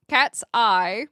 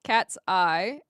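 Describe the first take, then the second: First: "Cat's eye" said louder, punched and rising on "Cat's"; emphatic. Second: Said in the usual way. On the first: Shown as a demonstration. Answering chat, calling out "Cat's eye" loudly with a rise on "Cat's".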